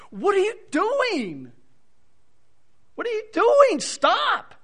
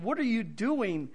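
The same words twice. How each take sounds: First: Much higher, louder pleading shout; emotional protest. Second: Said in the usual way. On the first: Shown as a demonstration. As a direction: cry out in anguished protest. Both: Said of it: "it's a strong emotional protest".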